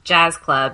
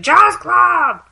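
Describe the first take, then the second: First: It is said in a non-American accent. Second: It is yelled in an American accent. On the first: "they'd say it's" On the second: "yelling back in an American accent"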